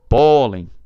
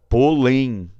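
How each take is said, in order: First: The stress is on the first syllable. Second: The stress is on the last syllable. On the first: The speaker calls it right. "O O é mais forte do que o EN" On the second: The speaker calls it wrong. "a tônica natural é a vogal um... nada de polém"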